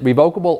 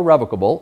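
First: Revocable as ree-VOKE-uh-bul; long-o pronunciation. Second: Revocable as REV-uh-kuh-bul; short-e pronunciation. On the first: Lawyer showing dictionary options, revocable said ree-VOKE-uh-bul. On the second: Lawyer showing dictionary options, revocable said REV-uh-kuh-bul. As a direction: say revocable with stress up front on REV. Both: Shown as a demonstration. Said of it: "you can pronounce it".

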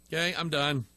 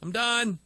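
First: Said in the usual way. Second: A resolute quit, the final word; firm final refusal. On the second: Retold or imitated. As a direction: set higher, decisive "done" falling hard. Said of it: "I finally have to say".

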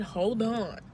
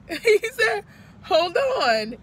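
First: Said in the usual way. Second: Higher, louder, voice breaking into tears; tearful repeated quote; crying out. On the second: Real, not acted. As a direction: let the sob break through the words. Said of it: "see myself crying".

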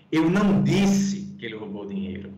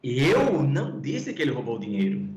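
First: "não" punched as the main accent; stress on NÃO. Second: "Eu" given the main accent of the line; stress on EU. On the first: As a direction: hit "não" to deny saying it. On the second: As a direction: hit "Eu" to say it was not me. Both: Shown as a demonstration. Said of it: "Vou falar aqui três percepções rápidas".

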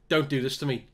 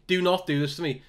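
First: Said in the usual way. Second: "not" pressed and lifted a little; stress on not. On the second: Real, not acted. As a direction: lean on "not" as a begging plea. Pleading with a player.

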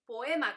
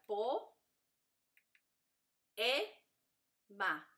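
First: Said in the usual way. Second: Po, e, ma with a long pause after each syllable; split into syllables. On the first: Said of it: "¿cómo se dice poema?". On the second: Shown as a demonstration. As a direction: say poema as three isolated syllables, po, e, ma. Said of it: "se divide. Entonces sería". (po, e, ma separadas con pausas largas)

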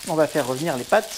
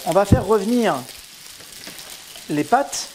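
First: Said in the usual way. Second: Put-on loud, higher southern French accent on "revenir"; hammed-up southern French accent. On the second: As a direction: sing out "On va faire revenir" in a Marseille-style southern French accent. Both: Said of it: "je vais prendre mon accent du Sud".

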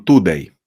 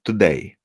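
First: „today” stressed Polish-style on the first syllable, TOday; wrong first-syllable stress. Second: „today” stressed on the second syllable, toDAY; stress on DAY. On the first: Teacher imitating Polish beginners' mistake, stressed TOday. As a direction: hit „to” in „today”, let „day” drop. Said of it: "Polacy często powiedzą". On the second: Teacher correcting the Polish learners' habit, stressed toDAY. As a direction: lighter „to”, stronger „day” in „today”. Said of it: "day jest wymawiane mocniej". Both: Shown as a demonstration.

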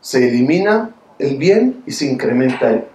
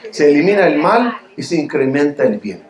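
First: Said in the usual way. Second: \"mal\" stressed as the fix, \"bien\" at the end; self-correction. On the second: Shown as a demonstration. Preacher fixing his slip to the congregation, stressing \"mal\". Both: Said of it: "¿qué dije?".

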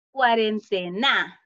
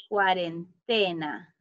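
First: "cuarentena" said slowly with the stress on final NA; wrong final stress. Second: "cuarentena" slow and lower, stressing TE; correct stress on TE. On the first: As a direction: say "cuarentena" as cuarenteNÁ, punching the last syllable. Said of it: "¿Está bien pronunciada?". ("cuarentena" lento, acentuando mal la última sílaba, NA) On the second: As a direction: say "cuarentena" as cuarenTEna, drawing out the TE. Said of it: "la pronunciamos de la forma correcta". ("cuarentena" lento, con el acento en TE) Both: Shown as a demonstration.

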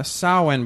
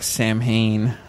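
First: Samhain said as SOW-in; Gaelic pronunciation. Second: Samhain read as SAM-hayn; spelling pronunciation. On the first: Cohost giving the real pronunciation of the Gaelic holiday, Samhain as SOW-in. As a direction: say Samhain like "SOW-win", with no m sound. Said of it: "which is pronounced". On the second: Cohost showing what the spelling looks like, Samhain as SAM-hayn. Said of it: "which looks like". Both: Shown as a demonstration.

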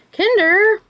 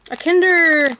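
First: Curious high rising read. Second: Said in the usual way. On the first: Real, not acted. Reads brand name off package.

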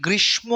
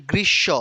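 First: গ্রীষ্ম as "grish-mo", with the m sounded; common m pronunciation. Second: গ্রীষ্ম as "grish-sho", no m; correct double-sh pronunciation. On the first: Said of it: "আমরা অনেকে গ্রীষ্ম উচ্চারণ করি". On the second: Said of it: "এটা শুদ্ধ উচ্চারণ হচ্ছে". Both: Shown as a demonstration.

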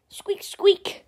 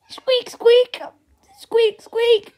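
First: High squeaks whispered under the breath; breathy tiny rodent squeak; whispered squirrel squeak. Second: Higher squeaks, a bit louder; squirrel squeak effect. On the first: The squirrel on its jetpack squeaks, whispered high. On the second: Voicing the squirrel's squeaks himself, high and louder. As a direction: squeal like a startled rodent. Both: Pretend. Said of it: "doing these sound effects all on my own".

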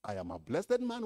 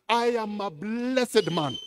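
First: Said in the usual way. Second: "I am a blessed man" louder and slow, each word leaned on; emphatic declaration. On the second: Shown as a demonstration. Pastor declaring himself blessed to the church, slow and loud.

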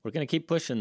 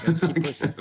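First: Said in the usual way. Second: Rallying, pushing back with a louder voice; louder rallying repeat. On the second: Real, not acted. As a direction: say it again louder, like a battle cry.

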